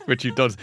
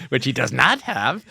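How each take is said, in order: First: Said in the usual way. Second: "not" drawn out and emphasised; slower, with a firm, stretched "not"; stress on NOT. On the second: Real, not acted. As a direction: lean slowly on "not" to correct the joke. Joking correction about Tom's accent.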